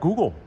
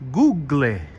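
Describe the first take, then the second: First: It is said with a plain English pronunciation. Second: It is said with an Italian pronunciation.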